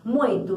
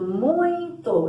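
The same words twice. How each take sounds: First: Said in the usual way. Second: "muito" higher and drawn out as mui-to; separando sílabas. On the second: Shown as a demonstration. ("muito" esticado, em duas sílabas) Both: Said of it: "encontro do U com I".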